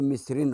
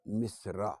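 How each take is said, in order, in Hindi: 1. इस शब्द का अंत -in की आवाज़ से होता है। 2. इस शब्द का अंत सादा -a की आवाज़ से होता है। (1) "जब मुनसरिफ होगा तो मिस्रिन होगा" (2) "जब गैर मुनसरिफ होगा"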